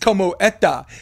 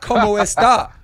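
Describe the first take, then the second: First: The s sound in está is dropped. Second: The s sound in está is pronounced. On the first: "you take the letter S" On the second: "So it's not como está"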